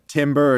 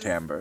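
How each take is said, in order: First: The first syllable sounds like 'tim'. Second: The first syllable sounds like 'tam'. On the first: The speaker calls it wrong. "It looks like t- timber" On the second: The speaker calls it right. "it's timbre"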